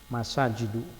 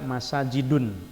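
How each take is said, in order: First: The word ends on a plain u vowel. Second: The word ends with an added n sound. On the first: The speaker calls it right. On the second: The speaker calls it wrong.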